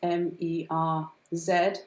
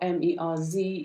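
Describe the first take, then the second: First: The letter Z is said as zed. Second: The letter Z is said as zee.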